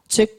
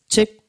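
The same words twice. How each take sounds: First: The delay repeats come quickly. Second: The delay repeats come slowly. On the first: The speaker calls it right. "Coba saya cepetin ya" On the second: The speaker calls it wrong. "tap temponya terlalu lambat"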